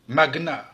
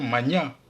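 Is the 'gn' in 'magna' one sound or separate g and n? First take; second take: separate; one sound. First: The g and n are pronounced separately. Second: The gn is one sound, as in agneau. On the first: "le G et le N se prononcent séparément" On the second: "la prononciation magna est aussi acceptée"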